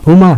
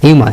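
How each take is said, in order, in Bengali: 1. এটি সাধারণ 'hoo' ধ্বনি দিয়ে শুরু হয়। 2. এটি 'hyoo' ধ্বনি দিয়ে শুরু হয়। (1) "হুমা নাকি হিউমার" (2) "হিউমারের উচ্চারণটা আমরা ঠিকই বলি হিউমা"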